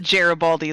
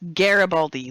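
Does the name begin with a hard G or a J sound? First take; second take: J sound; hard G. First: It begins with a soft J sound. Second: It begins with a hard G sound. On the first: The speaker calls it wrong. "like Jerry" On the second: The speaker calls it right. "like garage"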